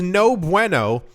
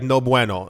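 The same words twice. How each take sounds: First: It is said with an American accent. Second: It is said with a Spanish-style accent. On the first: "I said it in an, an American accent" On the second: "he didn't say like no bueno"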